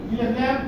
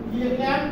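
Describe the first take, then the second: Both takes have the same delivery.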